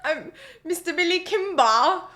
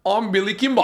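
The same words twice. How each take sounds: First: Mock gangster accent, pitched higher; "Kimber" with a hard K and an open "-bah"; Billy Kimber accent. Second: Higher, louder mock gangster accent with swallowed endings; a gangster swallowing his own name; Billy Kimber impression. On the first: The better take of the gangster's accent in the say-off. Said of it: "that's the better accent". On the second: Competing with cohost in a say-off, mock gangster accent. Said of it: "Who says it better?".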